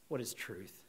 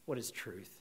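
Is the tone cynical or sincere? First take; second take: cynical; cynical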